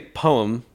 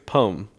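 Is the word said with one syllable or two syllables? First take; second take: two; one. First: The word is said slowly with two syllables. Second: The word is said quickly as one syllable. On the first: "I say poem" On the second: "if I say it quick, it's poem"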